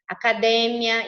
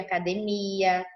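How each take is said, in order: First: It carries the Spanish stress pattern. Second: It carries the Portuguese stress pattern. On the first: This is the Spanish word. "academia em vez de" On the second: This is the Portuguese word. "em vez de academia"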